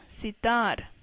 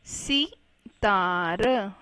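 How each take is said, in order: First: Said in the usual way. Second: सितार slowly split into si, taa, ra; slow spelling-out reading of सितार in parts; syllable by syllable. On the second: Shown as a demonstration. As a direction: sound out सितार with gaps between syllables. Teacher sounds out word by syllables.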